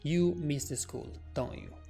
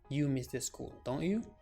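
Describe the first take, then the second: First: The voice falls at the end of the tag. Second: The voice rises at the end of the tag. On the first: "the first situation, my intonation dropped" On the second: "In the second situation, my intonation rose up"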